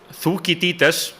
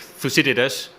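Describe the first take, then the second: First: The name is pronounced the Icelandic way. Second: The name is pronounced the English way.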